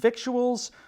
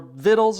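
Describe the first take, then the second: First: It is said with a k sound, vik-choo-uls. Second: It is said without a k sound, vit-uls. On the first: The speaker calls it wrong. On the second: The speaker calls it right.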